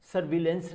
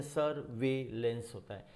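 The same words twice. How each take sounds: First: सर्विलेंस said sur-VEIL-ens with short "vi"; common mispronunciation. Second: सर्विलेंस said sur-VAY-lens; correct pronunciation. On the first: Teacher rejecting the habitual form, सर्विलेंस as sur-vil-ens. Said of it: "हमारी आदत है हम उसे सर्विलेंस बोलते हैं". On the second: Teacher modelling the word for students, सर्विलेंस as sur-vay-lens. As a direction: say सर्विलेंस with a long "vay" in the middle. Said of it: "सर्विलेंस नहीं होता". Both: Shown as a demonstration.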